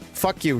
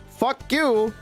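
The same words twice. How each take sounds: First: It is said in a hesitant, hedging way. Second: It is said boldly and forcefully.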